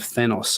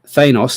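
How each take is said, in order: First: The first vowel is the 'at' sound. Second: The first vowel is the 'a' sound. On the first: The speaker calls it right. "which would have the at sound instead of the a sound" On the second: The speaker calls it wrong. "I do still say Thanos"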